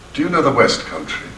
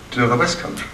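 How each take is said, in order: First: Plain reading, know slightly prominent; his own reading. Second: Faster, stress on West; quicker, West Country punched on West; director's reading. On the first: Shown as a demonstration. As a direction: stress on know. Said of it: "that's not the way to say it". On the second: Retold or imitated. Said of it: "You say".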